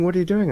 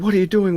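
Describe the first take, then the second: First: High cop demand, repeated; mock cop bark. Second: High, loud cop demand; mock cop bark. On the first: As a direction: keep grilling like the cop. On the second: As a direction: play the suspicious cop grilling him. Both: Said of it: "And they said".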